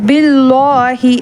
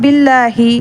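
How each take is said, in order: First: The L is pronounced thick and heavy. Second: The L is pronounced thin and light. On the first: The speaker calls it wrong. "பில்லாஹி அப்படிலாம் நம்ம சொல்லலை" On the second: The speaker calls it right. "கெஸ்ரா வச்சு வந்தனால அது நம்ம பில்லாஹி"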